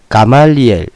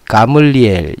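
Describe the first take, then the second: First: The second vowel is a full 'a' sound. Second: The second vowel is a reduced 'eu' sound.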